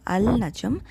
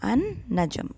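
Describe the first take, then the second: First: The l of the article is clearly pronounced. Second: The l blends into the following consonant. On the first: The speaker calls it wrong. "It is not Al-Najm" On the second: The speaker calls it right. "The lam is muted and we hear only the noon"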